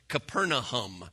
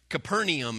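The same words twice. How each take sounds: First: The name has its original local pronunciation. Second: The name has its usual English pronunciation. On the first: The speaker calls it right. "It's actually said Capernaum" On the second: The speaker calls it wrong. "Capernaum is how we pronounce it, but that's actually not how it's said"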